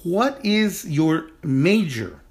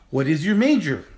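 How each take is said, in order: First: "What is your major?" said slowly and deliberately for students; slow model sentence. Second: Said in the usual way. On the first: Shown as a demonstration. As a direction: lay out each word slowly like a teacher. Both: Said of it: "So our sentence is".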